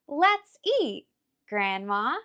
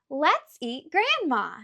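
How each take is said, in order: First: There is a pause before grandma. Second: It runs on with no pause before grandma. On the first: The speaker calls it right. "It should read" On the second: The speaker calls it wrong. "that sentence doesn't sound right"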